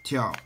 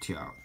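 First: The pitch falls sharply from high. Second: The pitch dips low, then rises.

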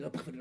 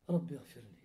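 First: The phrase is said quickly and hurriedly. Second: The phrase is said slowly and calmly. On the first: The prayer is rushed without care. The speaker calls it wrong. "C'est pas un Rabbi Afirli, Rabbi Afirli, Rabbi Afirli" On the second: The prayer is done with calm and presence. The speaker calls it right. "je reste tranquille. ... on devrait le dire comme ça"

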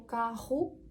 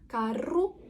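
First: The middle r is a guttural throat sound. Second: The middle r is a trilled r. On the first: This is the more modern way of speaking. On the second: This is the older way of speaking.

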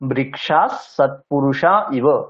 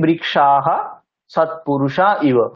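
First: The word ends with an s sound. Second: The word ends with a breathy echo, aha. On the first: "ঠিকঠাক সন্ধি নিয়ম মেনে যদি উচ্চারণ করি" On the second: "এমনি সামান্যভাবে নর্মাল উচ্চারণ কি"

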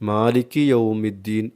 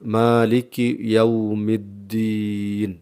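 First: The first syllable of the second word sounds 'yo'. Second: The first syllable of the second word sounds 'yaw'. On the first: The speaker calls it wrong. "യാഇന് ഒകാര സ്വരം വരുന്നുണ്ട്" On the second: The speaker calls it right. "എന്നാണ് ഓതേണ്ടത്"

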